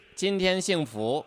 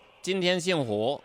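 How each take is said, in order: First: Higher-pitched southern Chinese accent; southern-accented Mandarin, pitched up. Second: Louder, higher southern Chinese accent. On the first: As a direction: imitate a southern Chinese speaker. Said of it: "sounds like a Chinese person". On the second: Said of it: "a southern accent saying". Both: Shown as a demonstration.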